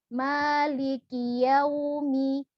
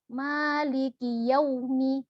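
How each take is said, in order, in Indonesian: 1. Suku kata yau keluar dengan lembut dan mudah. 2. Suku kata yau didorong keluar dengan tiba-tiba, dengan bibir dimoncongkan. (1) "tapi dia lembut" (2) "Yau itu kan langsung mencucu ya. Dia kurang lembut"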